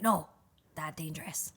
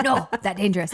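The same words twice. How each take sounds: First: Caveman voice. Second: Loud, blunt caveman warning. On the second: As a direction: bark it like a caveman. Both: Retold or imitated. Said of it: "that caveman voice".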